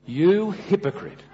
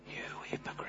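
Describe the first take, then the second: First: Slow, stressed You hypocrite with a falling end; deliberate spoken rebuke; emphatic. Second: Whispered accusation; soft unvoiced accusation. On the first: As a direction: lean hard on You. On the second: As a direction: breathe it out as a hushed reproach. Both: Shown as a demonstration.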